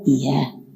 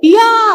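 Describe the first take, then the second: First: It is said softly, as if close by. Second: It is said loudly, as if from far away.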